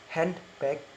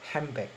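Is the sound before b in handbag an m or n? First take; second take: n; m. First: The sound before b is an n. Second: The sound before b is an m. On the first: "in normal speech is handbag" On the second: "in rapid speech in assimilation become a handbag"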